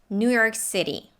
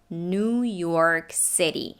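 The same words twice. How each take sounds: First: The phrase is said at normal speed. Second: The phrase is said slowly and clearly.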